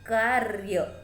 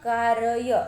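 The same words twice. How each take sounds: First: The r is light and joined without a vowel. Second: The r is said as a full separate syllable. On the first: The speaker calls it right. "आधा हल्के से र की ध्वनि" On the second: The speaker calls it wrong. "ऐसे बोलेंगे क्या? नहीं"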